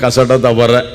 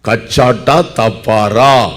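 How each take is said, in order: First: The hard consonants are softened and run together. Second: The hard consonants are said crisply and fully. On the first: This is the everyday way people say it. "நம்ம சொல்ல கசாட்டா தவற அப்படிம்போம்" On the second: This is the careful, proper way to say it. "சரியான உச்சரிப்பு"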